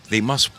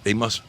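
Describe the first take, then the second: No difference in how they are said.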